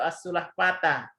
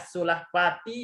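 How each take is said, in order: First: The word ends in an a vowel. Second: The word ends in an i vowel. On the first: "nggak boleh dibaca" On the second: "Ini nggak boleh dibaca"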